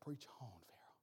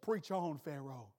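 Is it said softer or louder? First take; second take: softer; louder. First: It is said at a softer volume. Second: It is said at a louder volume.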